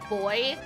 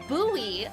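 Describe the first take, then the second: First: It is said the UK way, like boy. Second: It is said the Western US way.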